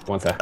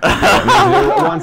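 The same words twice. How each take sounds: First: Said in the usual way. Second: High squeak through laughter; laughing. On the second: Real, not acted. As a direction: crack up mid-word.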